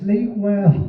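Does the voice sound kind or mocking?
kind. It sounds warm and kindly reassuring. The inner voice is supportive. "more encouraging"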